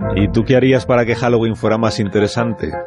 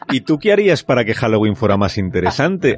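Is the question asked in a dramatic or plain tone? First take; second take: plain; dramatic. First: The question is asked in a plain, ordinary tone. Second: The question is asked in a more theatrical tone. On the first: The speaker calls it wrong. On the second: The speaker calls it right.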